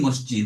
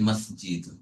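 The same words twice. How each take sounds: First: The word is said with Bengali pronunciation. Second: The word is said with Arabic pronunciation. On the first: This is how it is said in everyday Bengali. The speaker calls it wrong. "আমরা বলি মসজিদ বাংলায়" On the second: This is the original correct pronunciation. The speaker calls it right. "আসল উচ্চারণ হচ্ছে মসজিদ"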